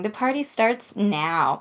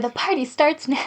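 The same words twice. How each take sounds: First: Said in the usual way. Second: Brighter, punchier read of the line; upbeat alternative take. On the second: Shown as a demonstration. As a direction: hit "starts" with energy.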